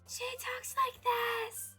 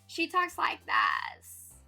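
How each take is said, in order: First: It is said like Bridget from Trolls. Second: It is said in a Valley Girl voice.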